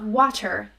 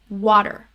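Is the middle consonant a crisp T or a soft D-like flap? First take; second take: crisp T; D-like flap. First: The middle consonant is a crisp T sound. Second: The middle consonant is a quick D-like flap. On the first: The speaker calls it wrong. "it's not water" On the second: The speaker calls it right. "most accent coaches will teach you to say it as a D sound"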